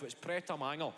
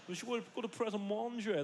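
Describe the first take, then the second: First: "Pret a Manger" with "Manger" said like English "manger", flat Scottish; mock-correct them, plain Glaswegian "Pret a Manger". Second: "Pret a Manger" dito à francesa, "Manger" como "mõnjê"; imitating posh kids saying "Pret a Manger" the French way. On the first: Shown as a demonstration. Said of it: "Wee man, you're fucking twelve". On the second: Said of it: "even pronouncing it correctly".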